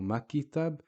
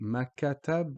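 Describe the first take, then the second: First: An 'i' vowel is inserted after the K. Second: An 'a' vowel is inserted after the K. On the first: "or makitab" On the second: "we don't actually say makatab"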